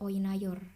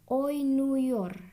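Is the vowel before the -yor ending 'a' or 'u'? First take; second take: a; u. First: The vowel before -yor is an a sound. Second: The vowel before -yor is a u sound. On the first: The speaker calls it wrong. "gak enak banget" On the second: The speaker calls it right. "perubahan vokal A-nya menjadi U"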